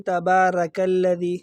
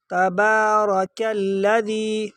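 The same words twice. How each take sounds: First: تبارک الذی with a light, thin "ra"; thin ra mistake. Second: تبارک الذی chanted slowly with a heavy, rounded "ro"; thick ra. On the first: Teacher showing people's mistake, thin ra in تبارک. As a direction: say تبارک quicker, keeping the r light instead of heavy. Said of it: "را کو باریک پڑھتے". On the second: Teacher modelling for students, slow chant with thick ra in تبارک. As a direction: draw out تبارک and make its r full. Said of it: "یہ را کو موٹا پڑھا جائے گا". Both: Shown as a demonstration.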